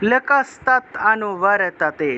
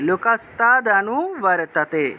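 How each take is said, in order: First: The word ends in a clipped 't' sound. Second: The word ends in a full 'd' sound. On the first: "দটা কিন্তু হসন্ত দিয়ে উচ্চারণ করলে তৎ উচ্চারণ হয়" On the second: "দটাকে পূর্ণ উচ্চারণ করলে অ আসে"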